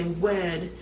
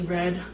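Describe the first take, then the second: First: The word begins with a W sound. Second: The word begins with an R sound. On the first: The speaker calls it wrong. "I would say with a W" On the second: The speaker calls it right. "you say it with an R"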